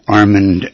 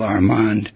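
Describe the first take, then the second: First: The stress is on the first syllable. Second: The stress is on the second syllable. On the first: The speaker calls it wrong. "not Armand, as is the common pronunciation" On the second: The speaker calls it right. "with the accent on the second syllable"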